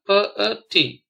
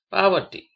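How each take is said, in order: First: "poverty" spaced as po, ver, ty; syllable by syllable. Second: Said in the usual way. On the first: Shown as a demonstration. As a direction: separate each syllable of "poverty". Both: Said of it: "spell the word".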